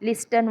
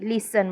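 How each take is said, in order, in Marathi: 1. t चा आवाज उच्चारला जातो. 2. t चा आवाज सायलेंट आहे. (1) "लिस्टन वाचायचं नाही" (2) "टी सायलेंट आहे, लिसन म्हणायचं"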